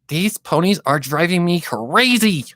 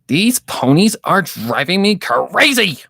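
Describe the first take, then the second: First: It is said softly in a high voice. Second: It is said very loudly.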